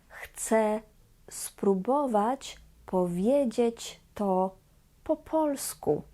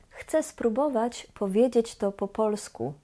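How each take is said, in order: First: It is said at a slow pace. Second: It is said at a fast pace.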